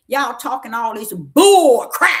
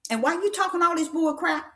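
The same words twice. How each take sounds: First: Slow rebuke bursting loud at the end; loud scolding. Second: Higher questioning rebuke, without the blast; high-pitched challenge. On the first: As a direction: blast BULL CRAP loud and drawn out. Retold scolding of the woman. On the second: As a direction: ask it high, scolding but not shouting. Repeats the scolding as a question. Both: Retold or imitated.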